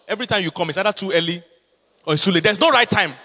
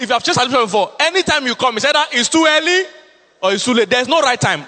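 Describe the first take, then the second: First: Said in the usual way. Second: Higher, louder preached repeat. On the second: Real, not acted. Pastor repeating the complaint to the congregation, louder and higher. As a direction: hammer it home the second time.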